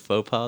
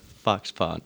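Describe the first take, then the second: First: The first word sounds like 'foe'. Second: The first word sounds like 'fox'. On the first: The speaker calls it wrong. "I thought it was Faux Paw this entire time" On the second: The speaker calls it right. "I just found out that they are Fox Paw"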